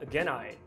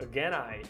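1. As duas palavras são ditas juntas, de forma fluida. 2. As duas palavras são ditas juntas, de forma fluida.

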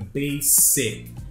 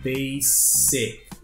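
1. A consoante do meio soa como s. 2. A consoante do meio soa como s.

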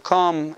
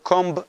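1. המילה מסתיימת בלי שום צליל b. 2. המילה מסתיימת בצליל b שנשמע. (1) "אתה אומר קום" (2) "אתה לא אומר קומב"

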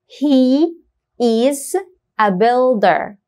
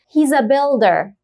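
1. تُقال He و is ككلمتين كاملتين. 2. تُنطق He و is كمقطع واحد.

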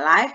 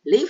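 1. Vokalnya terdengar seperti 'eye'. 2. Vokalnya terdengar seperti 'it'. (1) "Kalau siaran langsung dibacanya live" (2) "kalau tinggal dibacanya live saja"

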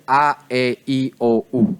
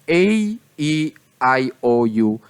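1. Ang bawat patinig ay binibigkas ayon sa maikling tunog nito. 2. Ang bawat patinig ay binibigkas ayon sa pangalan ng letra nito. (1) "oras na sila iisama nyo sa iba pang letra, ang tamang pagbigkas na po sa kanila ay" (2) "Kapag solo lang po yung letra, ganun po ang tamang pagbigkas"

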